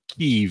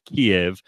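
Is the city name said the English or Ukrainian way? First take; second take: Ukrainian; English. First: The name is said in the Ukrainian-style way. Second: The name is said in the traditional English way. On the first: The speaker is trying to seem knowledgeable about the country. The speaker calls it wrong. "pretend that they know about the country by pronouncing things like Kiev" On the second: This is the established English name for the city. The speaker calls it right. "instead of Kiev"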